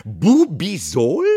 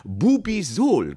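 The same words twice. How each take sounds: First: Loud, slow, rising question; outraged repeat. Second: Loud, high, drawn-out name; proud product presentation. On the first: Aunt outraged at the boss, incredulously loud. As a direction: throw the name back incredulously. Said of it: "brach sie los". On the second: Boss showing crystal bottles, proudly proclaiming. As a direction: announce the brand name grandly. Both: A narrator's reading.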